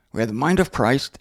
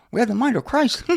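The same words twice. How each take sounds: First: Said in the usual way. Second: Mousy, high-pitched imitation; James Corum. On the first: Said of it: "That's how he talked". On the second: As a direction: put on a small, high mousy voice. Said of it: "A little mousy".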